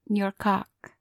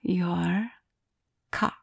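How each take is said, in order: First: It is said at normal speed. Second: It is said slowly and drawn out.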